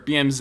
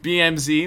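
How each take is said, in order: First: The last letter is said as 'zed'. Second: The last letter is said as 'zee'.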